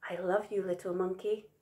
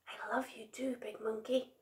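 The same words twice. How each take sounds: First: Soft, gentle voiced words; tender. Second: Very soft, breath-only whisper. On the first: Big Monkey hugging Little Monkey, tender. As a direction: say it lovingly, quietly. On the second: Little Monkey on Big Monkey's back, whispering. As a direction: whisper it affectionately. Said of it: "he whispered". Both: A narrator's reading.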